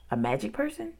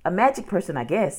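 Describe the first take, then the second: First: "A magic person" softer, rising high into a question; puzzled echo. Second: "A magic person" as a statement, settling downward; casual guess. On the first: Boy doubts sister's answer, "A magic person" as rising question. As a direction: repeat "A magic person" doubtfully, pitch climbing at the end. Jack echoes the guess as question. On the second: Girl answers brother, "A magic person" as a casual statement. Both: A narrator's reading.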